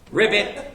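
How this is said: The word ends with a T sound.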